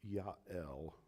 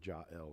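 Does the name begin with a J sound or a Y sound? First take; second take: Y sound; J sound. First: The name begins with a Y sound. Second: The name begins with a J sound. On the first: This is the original Hebrew form. "my Hebrew speakers, it's Yael" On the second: This is the English form. "you can say like jail or Jael"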